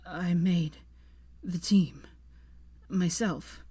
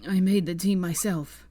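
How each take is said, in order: First: Broken, halting phrases. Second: Louder, firm on made; insistent repeat. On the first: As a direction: push words out between breaths. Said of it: "stuttered hoarsely". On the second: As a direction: insist on made, all at once. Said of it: "he repeated". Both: A narrator's reading.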